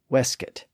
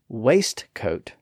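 First: The T sound after the S is silent. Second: The T sound after the S is pronounced. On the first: This is the later dialect pronunciation. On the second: This is the older pronunciation.

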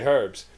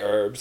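First: The word starts with an H sound. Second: The word starts without an H sound. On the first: The speaker calls it right. "we say herbs because there's an effing H in it" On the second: The speaker calls it wrong. "you say herbs"

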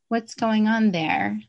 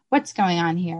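First: It is said neutrally, without judgment. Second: It is said harshly, with a low pitch.

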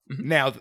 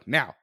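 First: It is said in a sinister, playful, threatening way. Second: It is said as an urgent push to act. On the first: A menacing game is about to begin. The speaker calls it wrong. "Not like, now, like, now we're playing the game" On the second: The listener is being told to hurry for safety. The speaker calls it right. "It's like, go now. Like, do it"

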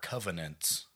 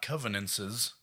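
First: The word ends with a -nants sound. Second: The word ends with a -nances sound. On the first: The speaker calls it right. "They are covenants" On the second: The speaker calls it wrong. "They're not covenances"

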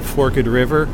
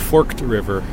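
First: Forked is said with two syllables, fork-ed. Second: Forked is said with one syllable, forkt. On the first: "sometimes with the ED" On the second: "or is it just called"

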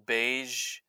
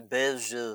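First: The name is said with an English pronunciation. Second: The name is said with a French pronunciation. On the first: "I'm pronouncing it terribly" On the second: "It's French, so I'll say Beige"

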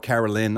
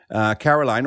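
First: The name is pronounced in the French way. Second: The name is pronounced in the English way. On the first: The speaker calls it right. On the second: The speaker calls it wrong.

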